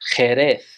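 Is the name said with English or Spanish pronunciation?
Spanish. It is said with Spanish pronunciation. "but in Spanish"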